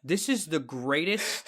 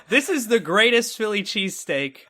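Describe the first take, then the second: First: Slow, softer, dumbfounded delivery; stunned awe. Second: Higher-pitched, emphatic rave; retold amazed proclamation. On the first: Retold or imitated. Man after his first bite of cheesesteak, stunned slow awe. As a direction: let each word out slowly, as if stunned. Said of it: "I just looked out with a blank stare". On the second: Man raving about his first bite, emphatic amazement.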